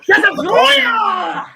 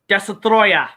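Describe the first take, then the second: First: It is said loudly, with strong feeling. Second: It is said flatly, without much feeling.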